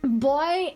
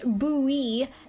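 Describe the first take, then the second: First: The word is said with a British accent. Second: The word is said with an American accent.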